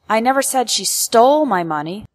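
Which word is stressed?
stole. The word stole carries the main stress. She did something else with the money, not steal it. "Implies that I never accused her of stealing, but perhaps I said that she did something else with my money"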